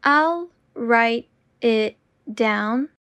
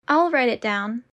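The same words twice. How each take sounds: First: Slow and deliberate. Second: Said in the usual way. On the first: Shown as a demonstration. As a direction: say it slowly and clearly. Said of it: "repetition drill, slowed take". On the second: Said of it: "repetition drill, normal take".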